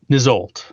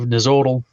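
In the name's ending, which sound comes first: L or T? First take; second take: L; T. First: The name ends with an L sound, then T. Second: The name ends with a T sound, then L. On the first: The speaker calls it right. "It's Nizolt" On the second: The speaker calls it wrong. "I put the T L because it looked cooler. But I just pronounced it wrong"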